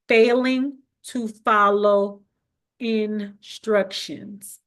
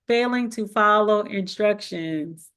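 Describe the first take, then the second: First: The phrase is spoken slowly and deliberately. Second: The phrase is spoken at a quick pace. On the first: "I'm gonna intentionally say this slowly" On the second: "I know I talk fast"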